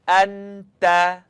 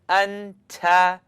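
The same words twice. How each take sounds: First: The t sound is soft, without a click. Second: The t sound ends with a sharp click. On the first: The speaker calls it right. "Now let's try one together" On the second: The speaker calls it wrong. "if you were saying it wrong, you'd hear something like"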